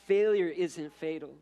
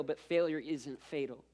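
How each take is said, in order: First: "Failure isn't fatal" said again louder, firmly; preacher hammering "Failure isn't fatal" home to the congregation; emphatic repeat. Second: Said in the usual way. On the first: Shown as a demonstration.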